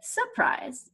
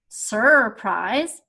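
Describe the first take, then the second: First: The first R sound is dropped. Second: The first R sound is pronounced. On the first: The speaker calls it right. "I say surprise" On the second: The speaker calls it wrong. "I don't say surprise"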